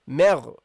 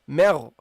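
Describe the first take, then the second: First: The m sound is light and thin. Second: The m sound is light and thin.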